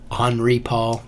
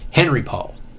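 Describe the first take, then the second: First: The first name has its original, non-English pronunciation. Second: The first name has an American English pronunciation. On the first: "I believe it's pronounced Henri Paul" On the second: "I'm going to say Henry because we're Markin"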